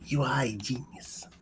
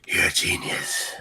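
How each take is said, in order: First: It is said in his normal voice. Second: It is said in a gruff Batman voice.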